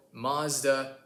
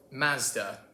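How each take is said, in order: First: Mazda with an open ah, mahz-duh; American Mazda. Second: Mazda with a flat a as in cat, maz-duh; British Mazda. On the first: American explaining vowels to viewers, open ah. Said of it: "we like the ah sound". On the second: British cousin showing his version, flat a. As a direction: say Mazda with a short front a. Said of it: "It's an ah sound for us". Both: Shown as a demonstration.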